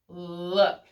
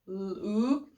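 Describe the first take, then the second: First: The vowel is short, as in book. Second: The vowel is long, as in boot. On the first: The speaker calls it right. "oh, uh, look" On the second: The speaker calls it wrong. "if we tried to say it with ooh"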